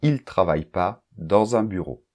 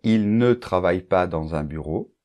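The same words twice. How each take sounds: First: The word 'ne' is left out. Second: The word 'ne' is clearly pronounced. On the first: "on va dire très très souvent" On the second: "au lieu de dire"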